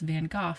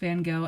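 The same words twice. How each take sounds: First: It is said the British way. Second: It is said the American way.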